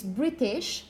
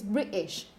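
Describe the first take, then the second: First: Said in the usual way. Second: "British" with a glottal stop for the T. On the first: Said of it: "You can say". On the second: Shown as a demonstration. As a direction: stop the throat mid-word in "British". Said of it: "something called glottal stops".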